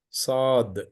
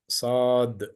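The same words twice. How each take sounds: Both takes have the same delivery.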